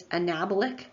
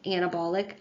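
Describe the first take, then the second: First: "anabolic" with second-syllable stress, a-NAB-olic; correct pronunciation. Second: "anabolic" with first-syllable stress, AN-a-bolic; mispronounced anabolic. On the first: Lecturer giving students the correction, anabolic stressed as a-NAB-olic. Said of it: "it's anabolic". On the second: Lecturer admitting an old mistake to students, anabolic stressed as AN-a-bolic. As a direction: say "anabolic" as AN-uh-BAWL-ik. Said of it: "I was mispronouncing anabolic". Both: Shown as a demonstration.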